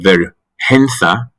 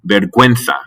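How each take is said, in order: First: No w sound follows the g. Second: A w sound follows the g. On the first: The speaker calls it wrong. "If you didn't have the U with the umlaut" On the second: The speaker calls it right. "we do say the U"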